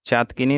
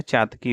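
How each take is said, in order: First: चातकिनी with extra "ni" ending; wrong form. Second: Said in the usual way. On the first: Shown as a demonstration. Teacher shows students the error, चातकिनी ending in kini. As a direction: add ni to make चातकिनी. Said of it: "नहीं होता है". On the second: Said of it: "होता है".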